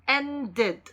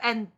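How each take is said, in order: First: An extra vowel comes before the final d. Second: A d is added directly with no extra vowel. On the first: The speaker calls it right. "ed가 id, id 이렇게 발음됩니다" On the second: The speaker calls it wrong. "ed도 울려야 되니까"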